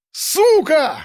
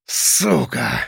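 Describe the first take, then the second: First: High-pitched furious curse; enraged yell. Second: Hoarse rasp. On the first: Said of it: "заорал он". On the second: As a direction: curse croaked out through rage. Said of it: "прохрипел он и сжал кулаки". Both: A narrator's reading.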